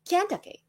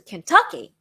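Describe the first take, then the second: First: The stress is on the first syllable. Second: The stress is on the second syllable. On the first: The speaker calls it wrong. "I emphasized on the wrong syllable. I, th- I thought it was Kentucky" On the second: The speaker calls it right. "but actually it was Kentucky"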